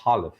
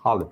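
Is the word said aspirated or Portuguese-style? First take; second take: aspirated; aspirated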